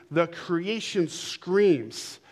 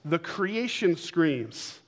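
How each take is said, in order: First: Very slow, every word weighted; slower repeat. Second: Drawn out, weighty words; slow emphatic declaration. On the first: Preacher repeating to congregation, very slow. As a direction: drag it out for effect. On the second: Preacher to congregation, slow and emphatic. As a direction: lean on creation, stretch it slowly. Preacher stressing key phrase. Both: Acted.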